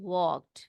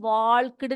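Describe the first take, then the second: First: The L sound is silent in the word. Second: The L sound is pronounced in the word. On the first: The speaker calls it right. "यहाँ पर एल जो होता है वो silent होता है" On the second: The speaker calls it wrong. "उसको हम वॉल्कड नहीं बोलेंगे बेटा"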